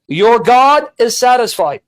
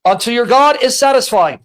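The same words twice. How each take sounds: First: "Your God" slow and drawn out; stress on "God". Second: Said in the usual way. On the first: Shown as a demonstration. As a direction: spell out "Your God" slowly for the listener. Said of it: "I want you to listen".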